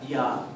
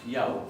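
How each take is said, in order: First: The vowel is a single plain 'a' sound. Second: The vowel glides from 'a' to 'u'. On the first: The speaker calls it wrong. "no se pronuncia ya" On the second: The speaker calls it right. "sino que se pronuncia yau"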